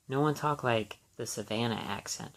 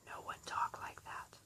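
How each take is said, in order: First: Said in the usual way. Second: Hushed aside, breath only; whisper. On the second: Real, not acted. Whispering an aside about how nobody in Savannah talked. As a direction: drop to a whisper as if sharing a secret.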